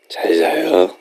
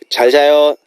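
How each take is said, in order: First: It is said in a smooth, low voice. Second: It is said in a plain, ordinary voice.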